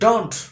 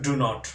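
First: It is said as one contracted syllable. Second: It is said as two separate full words. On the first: The speaker calls it right. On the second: The speaker calls it wrong. "not do not"

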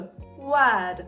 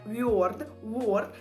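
First: The vowel is a long neutral central sound. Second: The vowel is rounded, close to an 'o'. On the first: The speaker calls it right. "там звук Е" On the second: The speaker calls it wrong. "ви намагаєтесь піти якось на О, але там звук не О"

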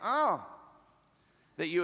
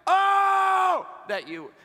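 First: It is said calmly, without much force. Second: It is said loudly, with strong intensity. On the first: The speaker calls it wrong. "He's not like" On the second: The speaker calls it right. "if that seems loud to you, if that seems like too intense to you"

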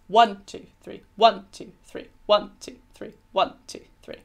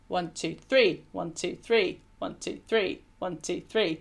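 First: Each group is stressed on one. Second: Each group is stressed on three. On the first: The rhythm is dactylic: one strong beat, then two weak ones. "whereas Hardy's was dactylic tetrameter" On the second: The rhythm is anapaestic: two weak beats, then a strong one. "So Byron's was anapaestic tetrameter"

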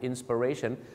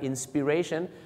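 First: The second syllable is reduced to 'per'. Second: The second syllable has a short 'i' vowel. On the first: "เสียงมันจะเปอร์มากกว่า" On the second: "สระอินะครับ"

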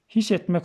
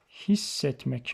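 First: The s sound is short and single. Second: The s sound is long and doubled. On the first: The speaker calls it wrong. "His etmek olur mu? Olmaz" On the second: The speaker calls it right. "Hissetmek olur"

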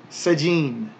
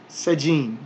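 No difference in how they are said.

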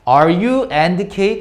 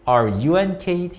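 First: There is a break between 'you' and 'and Kate'. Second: 'You and Kate' is said as one unbroken group. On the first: The speaker calls it wrong. "이렇게 하지 말고" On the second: The speaker calls it right. "이렇게"

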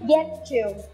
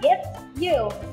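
First: The two words are linked into one sound. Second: The two words are said separately, unlinked. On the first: The speaker calls it right. "Vậy chúng ta biến nó trở thành âm t và đọc nó là" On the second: The speaker calls it wrong. "Các bạn không nên đọc là get you, nghe nó sẽ không hay"

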